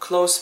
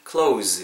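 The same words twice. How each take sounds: First: The word ends with a hissing s sound. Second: The word ends with a buzzing z sound. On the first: The speaker calls it wrong. "close가 아니고" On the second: The speaker calls it right. "이 경우에는 close, 약간 z 발음으로 해주셔야 된다"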